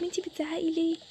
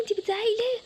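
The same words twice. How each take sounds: First: Said in the usual way. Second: Higher, indignant echo of a complaint; scolding mock-quote of the daughter; angry mimicking. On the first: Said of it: "بتقولي لي انتي بتزعقي ليه؟". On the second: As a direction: throw the question back, pitched up. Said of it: "انتي كمان بتس-، بتقولي لي".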